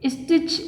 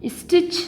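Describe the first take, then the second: No difference in how they are said.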